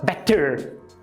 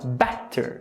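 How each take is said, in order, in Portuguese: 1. A tônica cai na segunda sílaba. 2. A tônica cai na primeira sílaba. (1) "você não fala better" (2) "você fala better, better. Logo, a segunda sílaba é átona"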